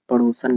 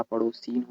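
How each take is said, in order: First: "पड़ोसन" ending in short -san; wrong form. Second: "पड़ोसीन" ending in long -seen; correct form. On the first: Teacher showing students the error, "पड़ोसन" ending -san. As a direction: end "पड़ोसन" on a short a before n. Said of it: "पड़ोसन नहीं होता". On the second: Teacher correcting for students, "पड़ोसीन" ending -seen. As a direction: stretch the ee before n in "पड़ोसीन". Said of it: "पड़ोसीन होता है". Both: Shown as a demonstration.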